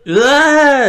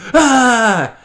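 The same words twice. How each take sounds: First: It is an ordinary, plain scream. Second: It is a wild, insane-sounding scream.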